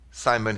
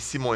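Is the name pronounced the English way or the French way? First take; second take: English; French. First: The name is pronounced the English way. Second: The name is pronounced the French way. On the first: This is how people here say the name. "Everybody calls me Simon here" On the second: This is how people in France say the name. "Everybody calls me Simon in France"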